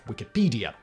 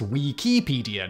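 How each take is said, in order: First: The first vowel sounds like 'wick'. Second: The first vowel sounds like 'wee'. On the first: The speaker calls it wrong. "not Wikipedia" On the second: The speaker calls it right. "should technically be pronounced Wikipedia"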